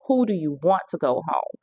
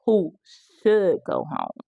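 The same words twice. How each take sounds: First: "want" leaned on within the question; stress on want. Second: "should" set apart and drawn out; slow down and lean hard on "should"; correcting someone, with a long, falling "should"; stress on should. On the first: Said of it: "Susie had to correct her". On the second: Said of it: "Susie had to correct her and said". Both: Retold or imitated.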